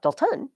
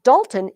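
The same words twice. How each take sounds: First: Dalton stressed on the second syllable; weak first beat, hit TON in Dalton; wrong second-syllable stress. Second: Dalton stressed on the first syllable. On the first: Teacher showing how the name isn't said, second-syllable stress. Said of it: "He's not Dalton". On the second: Teacher contrasting student's name with hers, first-syllable stress. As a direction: punch DAL in Dalton, weak ending. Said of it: "is the opposite of me". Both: Shown as a demonstration.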